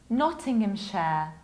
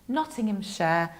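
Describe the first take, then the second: Both takes have the same delivery.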